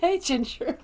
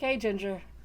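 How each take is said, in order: First: The greeting sounds happy and cheerful. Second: The greeting sounds flat and unexcited.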